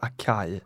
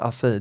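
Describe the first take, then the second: First: The word is pronounced a non-Portuguese way. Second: The word is pronounced the Portuguese way. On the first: The speaker calls it wrong. "det är inte acai" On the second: The speaker calls it right. "Det heter alltså acai"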